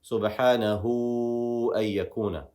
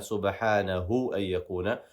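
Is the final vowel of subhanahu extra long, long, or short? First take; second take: extra long; short. First: The final vowel of subhanahu is held extra long. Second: The final vowel of subhanahu is short. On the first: The speaker calls it right. "that med gives us an even more extension" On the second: The speaker calls it wrong. "we're not going to just say"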